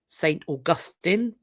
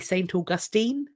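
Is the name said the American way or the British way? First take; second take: British; American. First: The name is said the British way. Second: The name is said the American way. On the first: This is how people in the speaker's country say it. "We probably say Saint Augustine" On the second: This is how people in the place itself say it. "if it's American, it'll be Saint Augustine"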